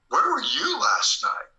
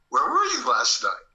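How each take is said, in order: First: It is said in a heavier, serious tone. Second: It is said in a light, casual tone.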